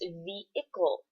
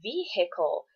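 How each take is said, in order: First: The H sound is left silent in the word. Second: The H sound is pronounced in the word. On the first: The speaker calls it right. "The H is silent" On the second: The speaker calls it wrong. "vehicle is only the proper pronunciation if you are saying vehicular"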